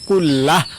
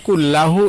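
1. শব্দটি শেষ হয় একটি শেষের h ধ্বনি দিয়ে। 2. শব্দটি শেষ হয় একটি যুক্ত u স্বরধ্বনি দিয়ে। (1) "লাস্টে হা উচ্চারণ" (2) "কুল্লাহ অথবা কুল্লাহু"

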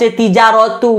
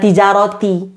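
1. Kata tijaratu berakhir dengan vokal u. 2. Kata tijaratu berakhir dengan vokal i. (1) "makanya dia dibaca tijaratu" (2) "bukan tijaroti"

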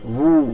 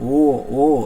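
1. স্বরধ্বনিটি একটি গোলাকার 'u' ধ্বনি। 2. স্বরধ্বনিটি একটি খোলা 'o' ধ্বনি। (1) "একেবারে ঠোঁটটা গোল করে হু" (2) "ও ও এরকম নয়"

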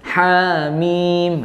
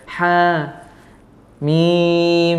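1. Kedua huruf itu mengalir menyatu tanpa jeda. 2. Ada henti di antara kedua huruf itu. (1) "mengalir ke huruf berikutnya" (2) "jadi nggak berhenti, nggak ngambil nafas, nggak terjeda"

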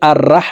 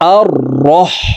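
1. "r" ধ্বনির পরের স্বরটি খোলা "a"। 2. "r" ধ্বনির পরের স্বরটি গোলাকার "o"।

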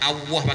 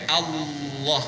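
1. Kata itu memiliki bunyi w membulat yang ditambahkan. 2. Kata itu memiliki l tebal tanpa w. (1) "Bukan Allah pakai wawu" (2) "Tapi dia Allah, karena lam tebal"

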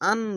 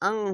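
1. এই শব্দাংশটি সাধারণ n ধ্বনি দিয়ে শেষ হয়। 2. এই শব্দাংশটি নাসিক্য ng ধ্বনি দিয়ে শেষ হয়। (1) "সবাই আন বলে, আন হবে না" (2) "আং হবে অনেস্কারের মতো"

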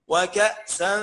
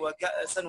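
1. الهمزة تُخرج نظيفة من غير قلقلة. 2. الهمزة تُخرج مع ارتداد يشبه الصدى. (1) "نقول ايه وكأسا دهاقا" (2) "في ناس بتقلقلها عشان همزة شديدة ... وده لا يجوز"

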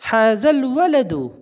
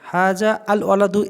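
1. আর্টিকেলটি প্রথম শব্দের সাথে যুক্ত করে বলা হয়। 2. আর্টিকেলটি আলাদা একটি শব্দ হিসেবে বলা হয়। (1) "যোগ করে পড়লাম" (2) "এভাবেও পড়িনি"

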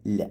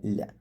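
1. L ലഘുവാണ്, ചുണ്ടുകൾ വിടർത്തി പറയുന്നത്. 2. L ലഘുവാണ്, ചുണ്ടുകൾ വിടർത്തി പറയുന്നത്.

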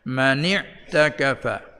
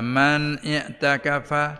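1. Kedua kata disambung dengan vokal setelah n. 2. Kedua kata dipisahkan dengan hentian glotal. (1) "hamzah tu gugur pada sambung, lalu bariskan" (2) "tak baca lah gitu. Nah, asal tu gitu"

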